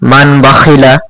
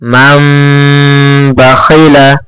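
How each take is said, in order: First: The first word ends in a plain n sound. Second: The first word ends in a held nasal m. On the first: The speaker calls it wrong. "প্রথমে মান মান বাখিলা এরকম উচ্চারণ হতো" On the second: The speaker calls it right. "এখানেও আমরা টানবো মাম মাম মাম বাখিলা, এইভাবে পড়ব"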